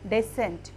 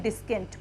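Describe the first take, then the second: First: The c is silent, with no k sound. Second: A k sound follows the s. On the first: The speaker calls it right. "डिसेंट पढ़ेंगे हम" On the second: The speaker calls it wrong. "ना कि डिस्केंट पढ़ेंगे"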